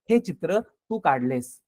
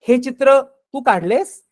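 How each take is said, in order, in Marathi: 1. हे साध्या विधानासारखं सपाट आवाजात म्हटलं आहे. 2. हे प्रश्नार्थक सुरात म्हटलं आहे. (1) "मला साधं विधान करायचंय" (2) "प्रश्नार्थक या अर्थाने विचारतोय"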